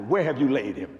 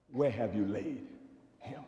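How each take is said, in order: First: Said in the usual way. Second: Hushed question. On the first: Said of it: "Ask somebody". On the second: Shown as a demonstration. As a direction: ask it softly, almost to yourself. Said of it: "Ask the question".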